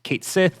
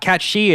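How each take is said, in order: First: The name sounds like 'kate sith'. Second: The name sounds like 'cat shee'. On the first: The speaker calls it right. "It is actually pronounced Kate Sith" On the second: The speaker calls it wrong. "It is not Cat She"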